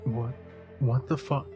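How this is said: It is said as a frightened whimper.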